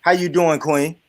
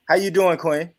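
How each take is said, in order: First: Hammed-up demon voice. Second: Smooth pickup line. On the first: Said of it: "Why you putting the demon voice on there?". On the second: Acted. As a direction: say it smooth and easy. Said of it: "that sounds smooth though".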